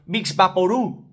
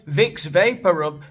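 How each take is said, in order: First: It is said with Spanish sounds and stress. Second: It is said with English sounds and stress. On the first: The speaker calls it wrong. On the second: The speaker calls it right.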